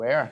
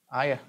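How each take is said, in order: First: The name is said with one syllable. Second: The name is said with two syllables. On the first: The speaker calls it right. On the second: The speaker calls it wrong.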